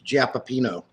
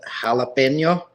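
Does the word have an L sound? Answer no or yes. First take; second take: no; yes. First: The word is said without an L sound. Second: The word is said with an L sound. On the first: The speaker calls it right. "The L is silent" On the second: The speaker calls it wrong. "they want you to think you're supposed to pronounce it jalapeno"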